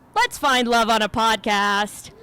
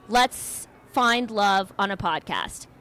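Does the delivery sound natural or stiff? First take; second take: natural; stiff. First: The line is delivered smoothly and naturally. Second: The line is delivered stiffly and awkwardly. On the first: The speaker calls it right. "I'm going to try it again" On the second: The speaker calls it wrong. "It didn't sound natural coming out of my mouth"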